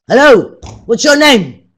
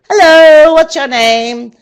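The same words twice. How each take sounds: First: It is said in an angry, harsh tone. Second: It is said in a happy, cheerful tone. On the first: "what about if you're angry?" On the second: "Now say it as if you're happy"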